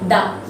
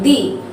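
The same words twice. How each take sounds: First: It is the pronunciation used before consonant sounds. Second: It is the pronunciation used before vowel sounds. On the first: "before any consonant sound we pronounce it as the" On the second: "Only before the vowel sound we use the, sorry, the"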